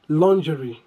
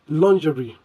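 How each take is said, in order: Both takes have the same delivery.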